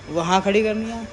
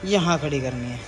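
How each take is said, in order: First: वहाँ खड़ी करनी है high and loud, mock-insisting; loud, high mock demand on खड़ी; mimicked kids' insistence. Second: यहाँ stressed, pitch dropped back to normal; louder यहाँ, settling into everyday pitch; mimicked kids' counter-demand. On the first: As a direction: pitch up and push खड़ी, imitating fussy kids. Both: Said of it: "ड्रामे ही देखो बच्चों के".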